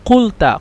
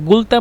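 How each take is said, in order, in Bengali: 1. শব্দটি একটি 'q' ধ্বনি দিয়ে শুরু হয়। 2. শব্দটি একটি কঠিন 'g' ধ্বনি দিয়ে শুরু হয়। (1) "কফ লাম তা কুলতা" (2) "কফকে এই আহলুস সাইদ যারা তারা গয়ন হিসাবে উচ্চারণ করে"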